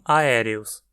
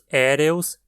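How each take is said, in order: First: The word begins with separate a and e sounds. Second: The word begins with a single e sound. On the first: This form belongs to the stem for air. The speaker calls it wrong. "e não aéreos" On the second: This is the word for copper-coloured. The speaker calls it right. "dizemos éreus"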